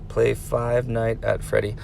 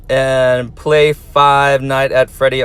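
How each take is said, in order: First: Ominous hush. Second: Slow reading. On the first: Teacher warning the viewer about a scary game, hushed. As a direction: Play Five Night at Freddy, said much softer and slower. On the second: Teacher reading a viewer's game request aloud, slow. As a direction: read the request out slowly, word by word. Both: Retold or imitated. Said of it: "I'm going to warn you, good luck".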